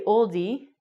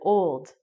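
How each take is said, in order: First: The word is said with two syllables. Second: The word is said with one syllable. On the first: The speaker calls it wrong. "they didn't say oldie" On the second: The speaker calls it right. "they said old"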